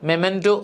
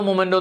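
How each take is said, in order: First: The first syllable has an 'e' vowel. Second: The first syllable has an 'o' vowel. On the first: The speaker calls it right. "മെമൻറ്റോ എന്നാണ് ഉച്ചരിക്കുന്നത്" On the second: The speaker calls it wrong. "നമ്മൾ മൊമെന്റോ മൊമെന്റോ എന്നാണ് പറയുന്നത്, തെറ്റാണ്"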